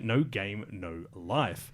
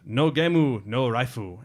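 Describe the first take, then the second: First: It is said with English pronunciation. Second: It is said with Japanese pronunciation.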